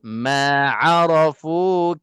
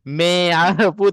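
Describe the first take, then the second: First: The first vowel is an open 'a' sound. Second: The first vowel is an 'e' sound. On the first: The speaker calls it right. "Ma ya" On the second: The speaker calls it wrong. "Jangan me. Me arafu tak nak lah"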